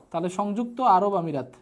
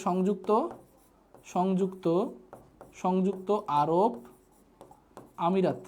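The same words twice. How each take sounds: First: Said in the usual way. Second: Slow dictation. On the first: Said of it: "teacher repeats name normally". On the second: Shown as a demonstration. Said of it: "teacher spells out country name".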